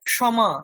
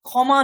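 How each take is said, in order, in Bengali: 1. গুচ্ছটি 'k' এবং 'sh' হিসেবে উচ্চারিত হয়। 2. গুচ্ছটি বাংলা 'kh' এর মতো করে উচ্চারিত হয়। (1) "ক এবং মূর্ধন্য ষয়ের যে যুক্তাক্ষরের যে উচ্চারণ" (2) "নয়"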